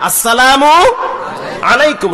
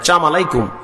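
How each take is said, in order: First: Every syllable of the greeting is fully pronounced. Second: The opening of the greeting is clipped short. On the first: The speaker calls it right. "শুদ্ধ করে সালাম দিবেন" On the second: The speaker calls it wrong. "অশুদ্ধ সালাম দেয়, ... না এটা বলা যাবে না"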